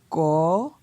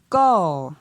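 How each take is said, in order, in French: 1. La syllabe est prononcée sur un ton montant. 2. La syllabe est prononcée sur un ton descendant. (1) "Pour un ton montant" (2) "Et pour un ton descendant"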